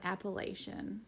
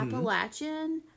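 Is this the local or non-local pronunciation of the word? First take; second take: non-local; local. First: It uses a non-local pronunciation. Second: It uses the local regional pronunciation. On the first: The speaker calls it wrong. "not Appalachian. So please get it right" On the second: The speaker calls it right. "if you're not from around here, and we are, it's mm-hmm. Appalachian"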